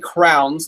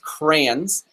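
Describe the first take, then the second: First: The word is said as one syllable, like 'crowns'. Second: The word is said as two syllables, 'cray-ons'. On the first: This is the speaker's own habit. The speaker calls it wrong. "I say crowns, like we put something on your head" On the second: This is how other family members say it. The speaker calls it right. "my wife's family says it as crayons"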